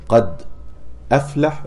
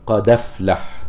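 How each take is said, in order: First: "قد أفلح" with a clear glottal stop, qad ʔaflaḥ; "قد أفلح" with the hamza kept and the dal left silent. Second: "قد أفلح" with the hamza dropped and its fatha moved onto the dal, qadaflaḥ; "قد أفلح" recited with naql, dal takes the fatha; Warsh reading. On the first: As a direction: stop on the sukun of "قد" then a full hamza on "أفلح". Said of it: "بدل". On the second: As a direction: join "قد أفلح" as one flow, no glottal stop. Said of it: "في رواية ورش عن نافع يقرأ". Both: Shown as a demonstration.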